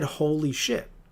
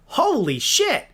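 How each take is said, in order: First: It is said in an ordinary natural voice. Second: It is said in a put-on cartoon character voice. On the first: "didn't say it like this" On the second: "am I fucking Sonic the Hedgehog?"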